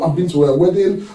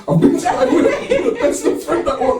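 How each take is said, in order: First: Said in the usual way. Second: "wedding" said much higher, laughing. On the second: Real, not acted. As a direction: burst out laughing on the repeat. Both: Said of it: "repeats it laughing".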